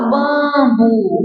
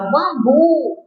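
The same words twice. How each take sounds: First: The stress is on the first syllable. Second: The stress is on the last syllable. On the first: The speaker calls it wrong. "você não fala bambu" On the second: The speaker calls it right. "você fala bambu"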